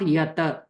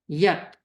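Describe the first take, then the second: First: An extra a vowel follows the t. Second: The word ends sharply on the t sound. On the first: The speaker calls it wrong. "not yata" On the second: The speaker calls it right. "we'll cut the pronunciation right there"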